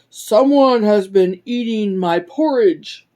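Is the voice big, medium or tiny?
big. It is said in a big, deep voice. A large character is speaking. "cried out in his great big voice"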